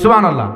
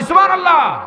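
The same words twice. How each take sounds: First: It is shouted loudly. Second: It is shouted even more loudly.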